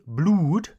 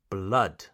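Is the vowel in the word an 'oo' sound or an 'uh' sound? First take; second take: oo; uh. First: The vowel is a long 'oo' sound. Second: The vowel is a short 'uh' sound. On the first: The speaker calls it wrong. "I don't say blood, no" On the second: The speaker calls it right. "It's pronounced blood"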